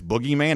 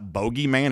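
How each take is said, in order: First: The first vowel sounds like 'oo'. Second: The first vowel sounds like 'oh'. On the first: The speaker calls it right. "it's boogeyman" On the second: The speaker calls it wrong. "the reporter mispronounced it, it's not bogeyman"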